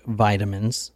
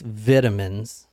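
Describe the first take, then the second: First: It is said in an American accent. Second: It is said in a British accent.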